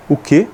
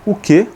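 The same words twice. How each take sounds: First: Said in the usual way. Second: O que? pitched high as a question; O que? raised sharply, frowning question; questioning demo. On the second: Shown as a demonstration. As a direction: ask O que? with the voice jumping up. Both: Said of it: "vou franzer a sobrancelha pra baixo".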